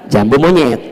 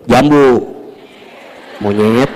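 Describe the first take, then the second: First: The two words run together without a pause. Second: There is a pause between the two words.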